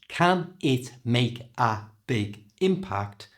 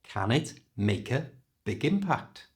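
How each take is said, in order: First: The words are said separately, one by one. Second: The words run together quickly in one breath. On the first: The speaker calls it wrong. "has gone from" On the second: The speaker calls it right. "not only sounds faster, but also sounds more natural"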